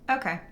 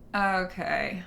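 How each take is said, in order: First: It is said in a firm, closed tone. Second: It is said in a dismissive tone. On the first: The speaker is not open to suggestions. "very closed response" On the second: The speaker acknowledges it but will not follow it. "Like, all right, I got it. Whatever you're trying to kick to me is not not something I'm going to follow"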